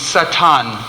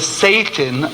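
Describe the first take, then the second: First: It is said with the Hebrew pronunciation. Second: It is said with the English pronunciation. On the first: It names the ego's reactive force. "That's the Hebrew pronunciation" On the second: It names the traditional horned devil. "it's not the Satan of tradition"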